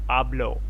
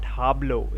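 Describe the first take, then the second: First: The starting H sound is silent. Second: The starting H sound is pronounced. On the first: The speaker calls it right. "the H is pretty much silent" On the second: The speaker calls it wrong. "not hablo"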